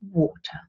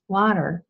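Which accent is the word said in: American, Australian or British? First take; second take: British; American. First: It is said in a British English accent. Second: It is said in an American English accent. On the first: "the British English word water" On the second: "is pronounced water in American English"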